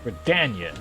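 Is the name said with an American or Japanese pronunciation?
American. It is said with an American English pronunciation. "the American way of saying it"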